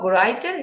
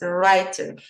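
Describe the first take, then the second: First: A W sound is heard at the start. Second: The word starts with an R sound. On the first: The speaker calls it wrong. "It's not writer" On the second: The speaker calls it right. "W you don't pronounce. it's writer"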